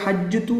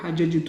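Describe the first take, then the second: First: The two j sounds are merged into one doubled j. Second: The two j sounds are separated by a vowel. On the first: The speaker calls it wrong. "ഹജ്ജതു എന്ന് പറയാൻ ബുദ്ധിമുട്ടായതുകൊണ്ട്" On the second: The speaker calls it right. "ഹജജതു എന്ന് പറയും"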